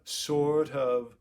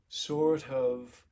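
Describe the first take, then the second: No difference in how they are said.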